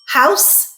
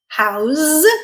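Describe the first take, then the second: First: The word ends in a voiceless s sound. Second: The word ends in a voiced z sound. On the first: It is a noun. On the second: It is a verb.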